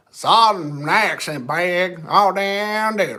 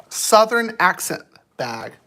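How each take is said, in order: First: Slow drawn-out Southern drawl; Southern accent. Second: Said in the usual way. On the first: Shown as a demonstration. Viewer asks for bag in Southern accent, slow Southern drawl.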